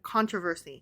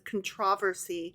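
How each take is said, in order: First: It is said the non-British way. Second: It is said the British way.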